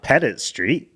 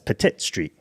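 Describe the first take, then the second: First: The T sounds are soft, almost like D. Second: The T sounds are crisp and clearly released. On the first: The speaker calls it wrong. "It's not" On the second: The speaker calls it right. "it was spelled P E T T I T"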